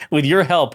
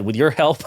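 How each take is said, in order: First: "your" leaned on, a bit louder after laughing; amused reread pressing "your"; stress on your. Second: Said in the usual way. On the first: Shown as a demonstration. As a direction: reread "with your help" hitting "your".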